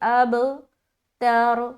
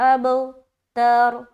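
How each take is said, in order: Both takes have the same delivery.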